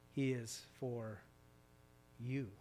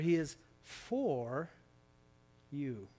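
First: The stress is on the word 'you'. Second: The stress is on the word 'for'.

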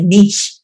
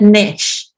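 First: It is said the British way. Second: It is said the American way.

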